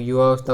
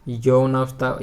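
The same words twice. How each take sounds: First: युवावस्था starting with yu-vaa; short yu then vaa in युवावस्था; correct form. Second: यौनावस्था starting with yau-naa; incorrect form. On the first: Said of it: "होता है". (सही रूप युवावस्था, 'युवा' से शुरू) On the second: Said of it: "ये लिख देते हैं". (गलत रूप यौनावस्था, 'यौना' से शुरू) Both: Shown as a demonstration.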